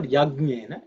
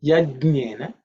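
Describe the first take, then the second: First: "Yajnena" as yag-nyena, hard g; mispronounced with G. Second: "Yajnena" as yaj-nyena; careful model "Yajnena" with the j kept; correct Sanskrit pronunciation. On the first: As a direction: put a hard g before the n in "Yajnena". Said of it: "It is not Yajnena". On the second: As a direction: say "Yajnena" with j before n, not hard g. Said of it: "it is Yajnena". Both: Shown as a demonstration.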